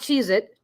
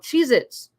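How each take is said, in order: First: The name ends with a plain t sound. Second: The name ends with a ts or z sound. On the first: The speaker calls it wrong. "not Cheez It" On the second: The speaker calls it right. "I remember, you know, Cheez Its"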